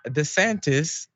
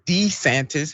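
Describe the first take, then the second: First: DeSantis with an unstressed "duh" first syllable; first DeSantis pronunciation. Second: DeSantis with a full "dee" first syllable; second DeSantis pronunciation. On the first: Host showing viewers one version of the surname, DeSantis as "duh-SAN-tis". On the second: Host showing viewers the other version of the surname, DeSantis as "DEE-san-tis". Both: Shown as a demonstration. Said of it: "has pronounced his name all kinds of different ways".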